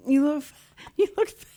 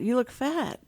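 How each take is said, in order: First: High, laughing through the blunt words. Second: Said in the usual way. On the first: Retold or imitated. Quoting the deaf friends' blunt verdict, high and laughing. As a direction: crack up mid-phrase. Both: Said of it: "And they went".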